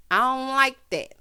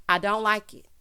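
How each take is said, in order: First: Louder, pressing on "like that"; emphatic repeat. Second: Said in the usual way. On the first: Real, not acted. Host insisting on dislike of Ron's looks, "like that" emphatic. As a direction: hit "like that" louder.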